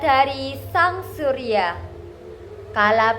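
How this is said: It is read with lively, feeling-filled expression. The speaker calls it right. "Jadi kita harus berekspresi"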